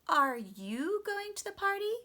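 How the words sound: The strong stress falls on the word you. The same question is returned to the asker. "And the strong stress was on you"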